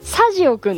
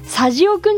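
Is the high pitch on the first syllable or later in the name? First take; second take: first; later. First: The pitch follows the pattern of 'radio', high first. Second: The pitch does not follow the pattern of 'radio'. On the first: The name comes from the word radio. The speaker calls it right. "サジオくんです" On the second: The name reads as sazi plus a boy's suffix. The speaker calls it wrong. "サジオくんじゃなくて"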